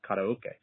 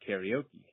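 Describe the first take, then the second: First: It is said with a Japanese pronunciation. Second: It is said with an American English pronunciation. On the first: The speaker calls it right. "the correct, correct pronunciation" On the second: The speaker calls it wrong. "I grew up calling karaoke"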